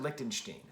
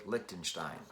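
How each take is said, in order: First: "Lichtenstein" ending in -steen, rhyming with "seen"; -steen pronunciation. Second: "Lichtenstein" ending in -stine, rhyming with "fine"; -stine pronunciation. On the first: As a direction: say "Lichtenstein" with a long E in the last syllable. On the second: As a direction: say "Lichtenstein" with a long I in the last syllable. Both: Shown as a demonstration. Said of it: "don't know how you pronounce his name".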